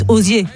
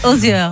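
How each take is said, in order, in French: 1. Le nom finit par un son fermé 'ay'. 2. Le nom finit par un son ouvert 'air'. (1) "dites Ozier" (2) "j'ai très très mal prononcé l'identité de ce chanteur"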